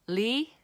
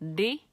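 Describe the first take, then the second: First: The consonant is a clear lateral L sound. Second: The consonant is a quick light tongue tap. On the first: The sound begins the word. "li is for the beginning" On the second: The sound is in the middle of the word. "di is when it's the sound is in the middle"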